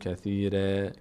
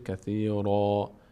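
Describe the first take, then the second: First: The r is pronounced light and thin. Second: The r is pronounced heavy and full. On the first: The speaker calls it wrong. "نمیگیم کثیره" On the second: The speaker calls it right. "را همچون از اون حروف پر حروف مستعلیه است که پر خونده بشه"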